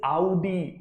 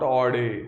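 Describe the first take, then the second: First: It begins with an 'ow' vowel sound. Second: It begins with an 'aw' vowel sound. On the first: The speaker calls it right. "It is आउडी" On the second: The speaker calls it wrong. "It is not ऑडी"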